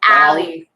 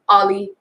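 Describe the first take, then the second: First: The first vowel sounds like the vowel in 'cat'. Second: The first vowel sounds like the vowel in 'hot'. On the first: The speaker calls it right. "this sound a is in my name" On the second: The speaker calls it wrong. "or Ollie"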